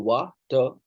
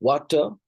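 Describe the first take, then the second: First: "वाटर" said as two parts, वा, टर, with a gap; two separate beats in वाटर; split into syllables. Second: Said in the usual way. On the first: Shown as a demonstration. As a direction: break वाटर after वा. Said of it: "sounds हैं". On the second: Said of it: "एक ही syllable है".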